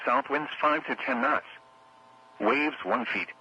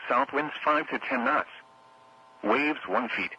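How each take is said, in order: Both takes have the same delivery.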